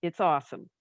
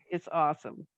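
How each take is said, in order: Both takes have the same delivery.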